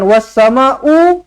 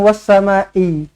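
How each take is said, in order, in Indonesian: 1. Kata ini diakhiri vokal 'u'. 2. Kata ini diakhiri vokal 'i'.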